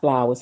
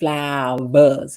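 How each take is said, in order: First: The word starts with a plain F sound. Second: The word starts with a V sound. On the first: The speaker calls it wrong. "not flowers" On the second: The speaker calls it right. "You have to say it with a V"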